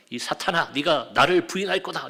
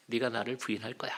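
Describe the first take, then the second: First: Imitated scolding, pressing harder toward the end; mock rebuke. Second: Soft, low, soothing retold voice; gentle, reassuring. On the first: Imagined Jesus scolding Peter over his coming denial, rebuking. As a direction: act out a reproach that was never really made. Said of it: "그때도 책망하셨나요?". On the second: Jesus comforting Peter about his coming denial, gently. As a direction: say it kindly, as if comforting him. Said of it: "오히려 다독이고 웃으시면서".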